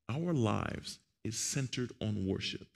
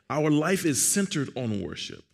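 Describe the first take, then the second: First: It is said more slowly. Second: It is said at normal speed.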